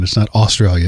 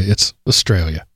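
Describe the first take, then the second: First: Australia with a full "aw" first syllable; Australia with a rounded, unreduced first vowel; mispronounced Australia. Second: Australia with a weak, reduced first syllable; Australia starting on a brief schwa, weight on the second syllable; corrected Australia. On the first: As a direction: say Australia as "AW-stralia", opening vowel clearly sounded. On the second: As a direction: say Australia as "uh-STRALIA". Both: Shown as a demonstration. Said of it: "I apologize for mispronouncing it".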